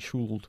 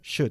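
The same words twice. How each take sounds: First: The word is said with an L sound. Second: The word is said with no L sound. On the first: The speaker calls it wrong. "No se dice should ni should" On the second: The speaker calls it right. "La L en la palabra should no se pronuncia"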